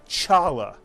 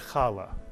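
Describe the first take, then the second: First: It begins with an English 'ch' sound. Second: It begins with a throaty, throat-clearing rasp. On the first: The speaker calls it wrong. "this word is not pronounced Chala" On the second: The speaker calls it right. "but is pronounced Chala"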